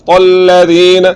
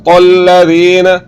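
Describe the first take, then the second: No difference in how they are said.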